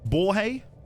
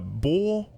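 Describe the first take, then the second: First: The consonant after the vowel is pronounced. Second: The consonant after the vowel is silent. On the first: The speaker calls it wrong. "I don't think that's how you say it" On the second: The speaker calls it right. "I'm going to guess the J is silent"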